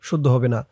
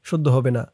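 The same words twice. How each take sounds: No difference in how they are said.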